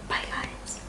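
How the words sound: It is whispered.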